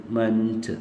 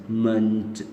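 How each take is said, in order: Both takes have the same delivery.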